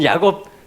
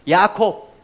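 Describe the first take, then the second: First: The second syllable begins with a soft 'g' sound. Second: The second syllable begins with an aspirated 'k' sound. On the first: This is the usual Korean reading of the name. "우리는 야곱" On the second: This is the Hebrew pronunciation of the name. "야곱의 히브리식 발음입니다"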